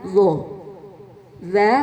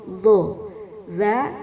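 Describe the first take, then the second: The two takes are said the same way.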